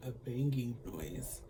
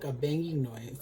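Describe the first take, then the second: First: Slow, laughing through the words. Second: Said in the usual way. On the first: Real, not acted. Retelling the show's odd noise, laughing softly. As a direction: giggle it out, quieter.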